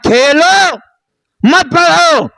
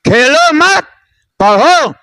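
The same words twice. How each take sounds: First: The pause falls before the word 'mat'. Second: The pause falls after the word 'mat'. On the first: You have studied enough; play instead of studying. "थोड़ा सा अंदाज बदला" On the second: Don't play; pick up a book and study. "मत को इधर लगा के कह दिया"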